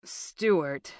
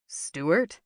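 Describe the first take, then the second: First: Careful, drawn-out name falling at the end; measured, controlled address; said slowly. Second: Surprised question with rising end; mildly startled recognition. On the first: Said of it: "Michael said slowly". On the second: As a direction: lift the name into a question. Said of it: "He didn't hide his surprise". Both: A narrator's reading.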